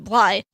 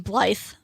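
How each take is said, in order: First: The name ends without a 'th' sound. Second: The name ends with a 'th' sound. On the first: The speaker calls it right. "You only pronounce the first three letters" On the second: The speaker calls it wrong. "most people want to say his name is [name]"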